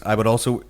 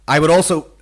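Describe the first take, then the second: First: Said in the usual way. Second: Stiff booming robot. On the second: Retold or imitated. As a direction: read it out like a metallic robot. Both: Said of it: "I read this out of my robot voice".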